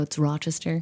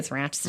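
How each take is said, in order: First: It has a lower Southern Virginia accent. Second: It has hard, nasal upstate New York A's.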